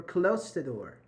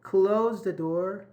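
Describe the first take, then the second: First: "close" with a voiceless s before "the door". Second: "Close" with a long voiced z before "the door". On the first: Teacher offers students the mistaken option, "close" said with s. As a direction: say "close" ending in a hissed s. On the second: Teacher tests students on the verb, "Close" slow with z. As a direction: slowly say "Close" ending in a buzzed z. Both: Shown as a demonstration. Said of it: "why is it S?".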